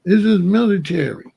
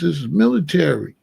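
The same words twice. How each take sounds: First: "This is military" said louder and a bit higher, clipped command; military bark. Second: Said in the usual way. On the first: Shown as a demonstration. Telling the police officer how he spoke, louder commanding tone. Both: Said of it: "I was talking like this".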